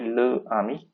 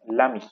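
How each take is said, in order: First: The article's vowel is kept before ami. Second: The article's vowel is dropped before ami. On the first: The speaker calls it wrong. "we don't say le ami" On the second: The speaker calls it right. "we say l'ami"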